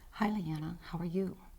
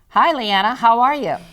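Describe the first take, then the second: First: It is said too softly. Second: It is said too loudly. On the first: "I'd say that one was too soft. / That's right" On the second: "It was too loud, wasn't it?"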